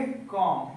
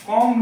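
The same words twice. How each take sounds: First: "कॉम" ending on M, no B; silent B. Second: "कॉम" said wrongly with its B sounded; wrong pronunciation. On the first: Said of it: "क्या बोलेंगे?". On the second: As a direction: show the mistaken "कॉम" with a voiced final B. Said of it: "कॉम नहीं बोलेंगे". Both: Shown as a demonstration.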